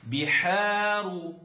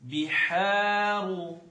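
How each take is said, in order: First: The first vowel sounds like 'ee'. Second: The same.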